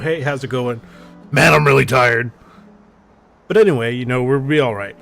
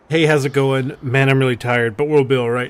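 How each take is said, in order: First: The voice and inflection shift abruptly partway through. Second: The voice and inflection stay even throughout.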